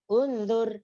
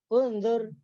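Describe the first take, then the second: The two takes are said the same way.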